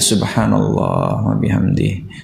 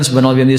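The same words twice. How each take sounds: First: It is said slowly and with feeling. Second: It is said quickly and carelessly. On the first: The words are felt sincerely in the heart. The speaker calls it right. "kayak gitu pelan-pelan zikirnya, dihayati" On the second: Only the count matters, not the feeling. The speaker calls it wrong. "asal aja berzikir"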